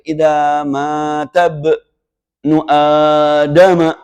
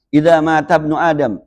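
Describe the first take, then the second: First: The vowels are drawn out long. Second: The vowels are kept short and quick. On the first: It follows the rules of Quran recitation. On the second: It is ordinary everyday speech.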